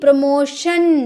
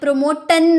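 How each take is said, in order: First: The middle consonant is a sh sound. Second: The middle consonant is a t sound. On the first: The speaker calls it right. "टी का ध्वनि श में निकलेगा" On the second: The speaker calls it wrong. "प्रमोटन नहीं"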